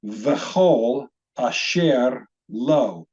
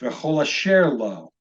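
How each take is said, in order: First: V'chol asher lo in slow, separated pieces; slow word-by-word pronunciation. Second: V'chol asher lo joined up, measured pace; read as one word. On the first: Teacher shows how the hyphenated word is pronounced, slowly sounding out v'chol asher lo. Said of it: "this word would be pronounced". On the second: Teacher models it for repeating, joining v'chol asher lo as one word. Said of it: "Why don't you repeat that after me?". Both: Shown as a demonstration.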